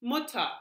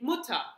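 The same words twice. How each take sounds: First: The final r sounds like a reduced a. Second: The same.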